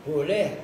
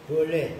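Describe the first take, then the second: Both takes have the same delivery.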